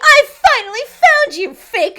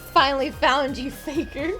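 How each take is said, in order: First: It is said in a put-on villainous voice. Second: It is said in the speaker's normal voice.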